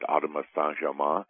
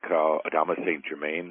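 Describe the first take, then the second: First: The name is pronounced the French way. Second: The name is pronounced the English way.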